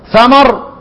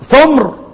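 First: Both syllables have the vowel a: thamar. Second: The middle consonant has no vowel: thumr. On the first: "من الفتح" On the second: "ومن الإسكان"

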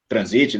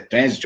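First: The word is pronounced the German way. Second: The word is pronounced the English way. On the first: "ou se é em alemão e tem outra pronúncia" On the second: "não sei se é em inglês o nome oficial"

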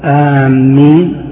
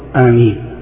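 First: The m sound is doubled and held. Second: The first vowel is short, m single. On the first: It means those heading toward something. The speaker calls it wrong. "إذا شدد الميم كانت بمعنى قاصدي" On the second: It means: O God, answer. The speaker calls it right. "يصح بالقصر"

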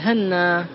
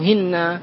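First: The first vowel is 'a', with a doubled n. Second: The first vowel is 'i', with a doubled n. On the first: "بالتشديد مع الفتح" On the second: "بالتشديد مع الكسر"

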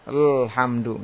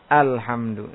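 First: The word starts directly on the consonant l. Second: The word starts with the vowel a before l. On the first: The speaker calls it wrong. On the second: The speaker calls it right.

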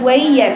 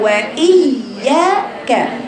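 First: The hamza is softened and eased over. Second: The hamza is pronounced with a clear stop. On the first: The speaker calls it wrong. "عملتي تسهيل في الهمزة ... هي ليست وإياك" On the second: The speaker calls it right. "هي وإياك"

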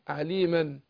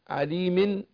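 First: The word ends in an -an sound. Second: The word ends in an -in sound. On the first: "مفتوح" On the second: "مكسور"

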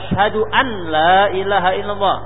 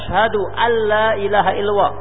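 First: The n is pronounced separately before the l. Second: The n merges into the following l sound. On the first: The speaker calls it wrong. "jangan membaca ... tidak sah bacaannya" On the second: The speaker calls it right. "wajib membaca asyhadu alla ilaha illallah. Wajib idgham di situ"

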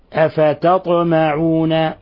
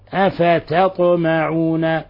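No difference in how they are said.

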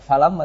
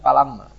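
First: The word begins with an f sound. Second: The word begins with a p sound. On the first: The speaker calls it right. "tidak falama" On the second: The speaker calls it wrong. "tapi palama"

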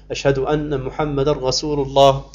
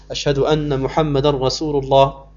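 No difference in how they are said.

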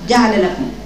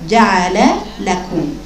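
First: The first lam's vowel is cut short. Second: The first lam's vowel is given full length. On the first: The speaker calls it wrong. "كأن اللام الأولى كأن اختلست حركة اللام" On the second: The speaker calls it right. "هي حرف مفتوح كامل الفتحة"

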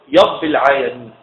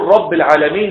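First: The first word begins with a y sound. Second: The first word begins with an r sound. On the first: The speaker calls it wrong. "الراء ياء" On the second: The speaker calls it right. "يقول رب العالمين"

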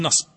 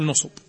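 First: The first vowel is a short 'a'. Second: The first two vowels are short 'u'. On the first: "فتح النون من قوله نصب" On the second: "كان يضمها مع الصاد يقول نصب"

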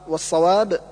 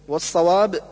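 Both takes have the same delivery.

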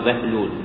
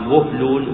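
First: The first vowel is a. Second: The first vowel is u. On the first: The speaker calls it wrong. "ولا يقال بهلول" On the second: The speaker calls it right. "يقال بهلول"

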